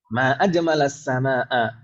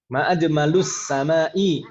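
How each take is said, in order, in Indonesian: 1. Kedua kata itu berakhir dengan vokal a dan a. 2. Kedua kata itu berakhir dengan vokal u dan i. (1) "yang betul fathah fathah ma ajmalas samaa" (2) "ma ajmalu dhammah ... samai kasroh"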